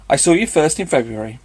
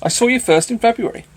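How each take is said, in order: First: Said in the usual way. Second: Higher, louder, so the hill can hear; loud playful announcement; swelling declaration. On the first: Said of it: "Let everybody on the hill hear me". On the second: Acted. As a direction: proclaim it for all to hear. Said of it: "Let my accent swell to Mickleham".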